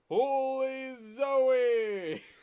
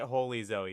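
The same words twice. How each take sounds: First: It is said in a booming announcer voice. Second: It is said in a plain, ordinary voice.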